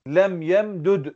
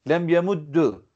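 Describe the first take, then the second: First: The two d sounds are pronounced separately. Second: The two d sounds merge into one doubled d. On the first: "İdgamsız okuduğumuz zaman ne deriz? Lem yem düd deriz" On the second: "Peki idgamlı okuduğumuz zaman ne deriz"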